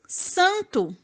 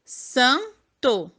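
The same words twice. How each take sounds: First: Said in the usual way. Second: Santo split as "san... to", full final o; san – to, pause between syllables. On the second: Shown as a demonstration. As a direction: say "santo" in two separate beats. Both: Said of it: "vamos ver".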